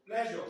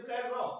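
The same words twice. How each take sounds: First: Said in the usual way. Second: Put-on Yoruba-accented "pleasure", SH turned to S. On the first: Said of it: "They will say pleasure". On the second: Teacher showing class how Yoruba speakers say it, Yoruba accent. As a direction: say "pleasure" as "plesor", Yoruba-style. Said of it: "They cannot call S H properly".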